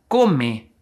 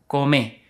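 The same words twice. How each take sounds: First: The stress is on the first syllable. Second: The stress is on the last syllable.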